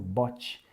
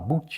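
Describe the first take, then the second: First: The vowel is a short o sound. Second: The vowel is a long oo sound. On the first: The speaker calls it right. "Mas é o bot" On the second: The speaker calls it wrong. "Tem gente que fala boot"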